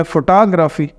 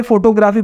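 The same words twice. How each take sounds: First: "photography" as fo-TOG-ra-fi, weight on TOG; second-syllable stress. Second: Said in the usual way. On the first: Shown as a demonstration. Teacher corrects the usual reading, "photography" stressed fo-TOG-ra-fi. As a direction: hit the second syllable of "photography", others light. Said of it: "second syllable stress कर दिया". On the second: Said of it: "जैसे हम सारे photography पढ़ते हैं".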